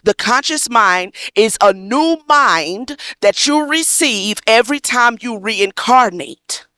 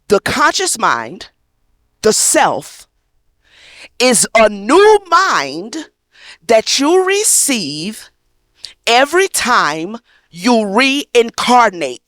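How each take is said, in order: First: It is said at a normal, faster pace. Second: It is said at a slower pace.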